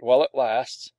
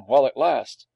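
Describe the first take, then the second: First: Offhand falling tag, "while it lasts"; casual, knowing aside at the end; knowing caveat. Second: Louder questioning "while it lasts"; taken aback, querying the phrase; puzzled echo. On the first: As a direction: drop "lasts" as a wry warning. Knowing warning tagged on. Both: A narrator's reading.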